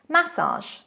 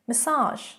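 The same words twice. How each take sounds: First: It is said with British stress and accent. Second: It is said with American stress and accent. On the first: "in British English" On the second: "in American English"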